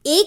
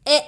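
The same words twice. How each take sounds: First: ए as a short, wide-open "æ"; short wide-mouthed ए; open-mouthed A sound. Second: ए as a short "eh", mouth less open; short narrow ए, like e in egg; narrow-mouthed E sound. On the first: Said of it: "मुंह को बड़ा खोलना है". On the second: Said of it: "मुंह को कम खोलना है". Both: Shown as a demonstration.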